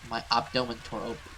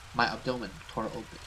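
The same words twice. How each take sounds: The two takes are said the same way.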